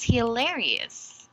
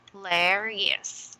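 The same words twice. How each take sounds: First: "hilarious" joined up, stressing LAR; stress on second syllable. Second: Slow "hilarious", split into its syllables; broken into syllables. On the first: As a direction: read "hilarious" as one word, weight on its second syllable. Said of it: "emphasized on the second". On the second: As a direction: sound out "hilarious" piece by piece for a learner. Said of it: "syllabicate this word". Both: Shown as a demonstration.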